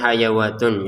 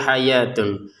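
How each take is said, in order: First: The word has an added w sound in the middle. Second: The word has no w sound in the middle. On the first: The speaker calls it wrong. "kalau kita tidak jeli akan membacanya hayawatun" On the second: The speaker calls it right. "Tulisannya hayatun ya"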